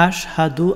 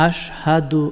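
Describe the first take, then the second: The two takes are said the same way.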